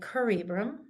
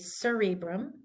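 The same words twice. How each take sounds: First: The word begins with a hard K sound. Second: The word begins with a soft S sound. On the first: The speaker calls it wrong. "We don't say" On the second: The speaker calls it right. "we say"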